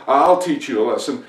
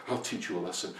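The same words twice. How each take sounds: First: Loud, vengeful declaration; angry threat. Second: Low, soft muttered threat; muttering. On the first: Farmer vents at his bad luck, loud angry threat. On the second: Farmer mutters while digging, low quiet grumble. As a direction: grumble it under your breath. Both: Acted. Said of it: "muttering to himself".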